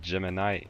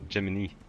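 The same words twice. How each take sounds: First: The final syllable sounds like 'eye'. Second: The final syllable sounds like 'ee'. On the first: The speaker calls it right. "but it's Gemini" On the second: The speaker calls it wrong. "I always said Gemini"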